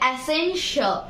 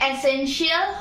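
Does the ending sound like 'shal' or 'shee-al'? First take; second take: shal; shee-al. First: The ending is said as 'shal'. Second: The ending is said as 'shee-al'. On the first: The speaker calls it right. "এটা হবে এসেনশিয়াল" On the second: The speaker calls it wrong. "এটা এসেনশিয়াল হবে না"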